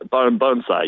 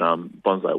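First: The first syllable sounds like 'bone'. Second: The first syllable rhymes with 'on'. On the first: "Pronounce kind of like bone" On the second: "but bonsai works too"

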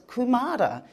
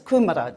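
First: It is pronounced the way local people say it. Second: It is pronounced like the vegetable's name. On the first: The speaker calls it right. "the people say that I said it wrong, it's Kumara" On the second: The speaker calls it wrong. "just like the vegetable"

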